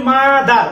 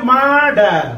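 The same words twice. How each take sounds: First: The teacher's own careful মাদার; correct pronunciation. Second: মার্ডার said with a hard retroflex d instead of th; imitating how local kids say মার্ডার; child's mispronunciation. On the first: Shown as a demonstration. Teacher shows students the right মাদার. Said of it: "আমি বলি মাদার". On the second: Teacher mimics Rangamati children saying মার্ডার. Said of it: "ওরা মাদার উচ্চারণ করতে পারে না, ওরা বলে মার্ডার".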